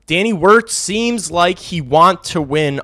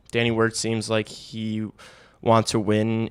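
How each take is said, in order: First: Emphatic. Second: Said in the usual way. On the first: Shown as a demonstration. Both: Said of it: "repeats the line emphatically".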